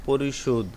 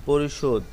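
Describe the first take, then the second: No difference in how they are said.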